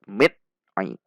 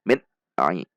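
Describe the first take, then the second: First: The n is cut off abruptly and jerkily. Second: The n is cut off abruptly and jerkily.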